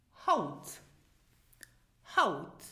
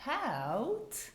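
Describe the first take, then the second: First: Haut with a long ow, meaning today; Haut, long vowel. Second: Haut with a short ow, meaning skin. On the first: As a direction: draw out Haut. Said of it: "the ow sound is pronounced long". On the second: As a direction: clip the vowel in Haut. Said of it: "the ow sound is pronounced short". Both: Shown as a demonstration.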